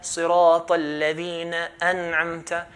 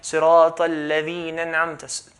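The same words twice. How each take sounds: First: The glottal stop before 'an'amta' is pronounced. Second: The glottal stop before 'an'amta' is dropped. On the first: The speaker calls it right. "This hamza al-qat will be pronounced wherever it is" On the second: The speaker calls it wrong. "skipping the alif is wrong"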